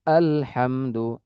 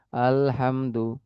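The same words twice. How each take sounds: First: আলহামদু said slowly with a firm glottal catch on the opening আ; firm hamza. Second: আলহামদু said slowly with the opening আ soft and unstopped, a touch quieter; soft hamza. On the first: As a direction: hit the আ of আলহামদু with a crisp stop. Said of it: "একটু শক্ত করে বললে এটা সঠিকভাবে উচ্চারণ হলো". (একটু শক্ত করে হামজা দিয়ে ধীরে আলহামদু) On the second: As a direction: glide into আলহামদু with no catch before আ. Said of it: "হামজার উচ্চারণটা যদি আমি নরমভাবে বলি". (নরমভাবে হামজা দিয়ে ধীরে আলহামদু) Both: Shown as a demonstration.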